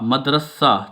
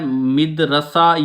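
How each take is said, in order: First: The first vowel is a, the second is a. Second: The first vowel is i, the second is a. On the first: The speaker calls it right. "मीम जबर दल मद रे जबर रा सीन जबर हे सा" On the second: The speaker calls it wrong. "ये भी नहीं ठीक"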